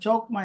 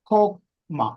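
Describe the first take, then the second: First: The word begins with a plain ch sound. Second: The word begins with a harsh kh sound. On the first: The speaker calls it wrong. "എഴുതിയിരിക്കുന്നത് പോലെ വായിച്ച" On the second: The speaker calls it right. "എൻ്റെ ഉച്ചാരണം കെയിൽ തുടങ്ങണം"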